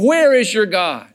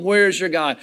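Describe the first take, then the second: First: A mild jeering voice, a touch louder; mocking taunt. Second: Said in the usual way. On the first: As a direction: throw the question back as a taunt. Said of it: "others are mocking me". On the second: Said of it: "reading the psalm".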